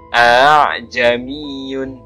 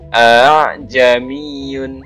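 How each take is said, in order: Both takes have the same delivery.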